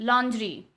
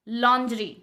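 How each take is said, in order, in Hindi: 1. शब्द की शुरुआत 'lon' की आवाज़ से होती है। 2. शब्द की शुरुआत 'lon' की आवाज़ से होती है।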